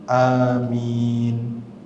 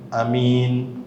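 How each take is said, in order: First: The first vowel is drawn out long. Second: The first vowel is cut short. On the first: It is a plea for God to answer the prayer. The speaker calls it right. "termasuk sunnah adalah antum mengucapkan kata amin" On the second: It means trustworthy. The speaker calls it wrong. "Jangan amin. Kalau amin berarti apa? Yang terpercaya"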